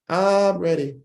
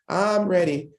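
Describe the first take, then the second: First: It is said in a SpongeBob impression. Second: It is said in a SpongeBob impression.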